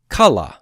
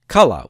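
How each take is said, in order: First: The stress is on the first syllable. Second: The same.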